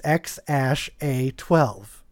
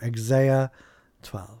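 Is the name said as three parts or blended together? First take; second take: three parts; blended. First: The name is spaced out as separate letter names. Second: The letters are blended into one flowing word. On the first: The speaker calls it right. "it's literally said like it's spaced" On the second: The speaker calls it wrong. "I thought it was Exea 12"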